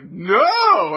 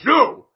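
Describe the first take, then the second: First: It is said softly with a lilting tune. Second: It is said sharply and harshly. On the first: The refusal is meant kindly. The speaker calls it right. "Do you have that, like, lilt in your voice?" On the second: The refusal scolds the person. The speaker calls it wrong. "it's really mean"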